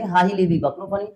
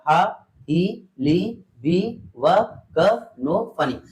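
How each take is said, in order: First: It is said at a somewhat quicker speed. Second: It is said very slowly, syllable by syllable.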